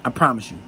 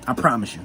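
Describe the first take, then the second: No difference in how they are said.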